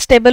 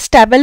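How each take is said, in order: First: The first vowel sounds like 'ay'. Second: The first vowel sounds like 'a' in cat. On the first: It means steady. "जर त्याला स्टेबल उच्चारलं तर त्याचा अर्थ असतो स्थिर" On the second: It means a place where horses are kept. "जर आपण त्याला स्टॅबल म्हटलं तर त्याचा अर्थ असतो तबेला"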